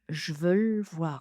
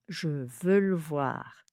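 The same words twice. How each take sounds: First: It is squeezed down to only two syllables. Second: One syllable is dropped, leaving three. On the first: "On n'a plus que deux syllabes" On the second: "trois syllabes"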